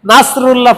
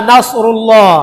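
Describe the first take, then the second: First: "নাসরুল্লাহ" with a thin s; sin for sad. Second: "নাসরুল্লাহ" recited slowly with a heavy Arabic sad. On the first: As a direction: say "নাসরুল্লাহ" with a light sin, as a mistaken reading. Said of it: "সিন উচ্চারণ করি". ("নাসরুল্লাহ"-তে পাতলা সিন) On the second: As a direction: give the স in "নাসরুল্লাহ" a full, emphatic sad sound. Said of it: "সাদ উচ্চারণ না করি". ("নাসরুল্লাহ"-তে ভারী সাদ উচ্চারণ) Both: Shown as a demonstration.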